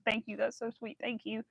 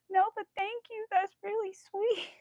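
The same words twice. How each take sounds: First: Said in the usual way. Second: High humble reply. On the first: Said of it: "I did say that with". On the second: Retold or imitated. What she wanted to tell the bartender, high and bashful. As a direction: squeak out a shy thank you. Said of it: "I wanted to be like".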